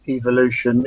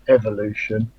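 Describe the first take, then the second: First: It is pronounced in the British English way. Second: It is pronounced in a non-British way. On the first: The speaker calls it right. "the correct way to pronounce it" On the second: The speaker calls it wrong. "not evolution"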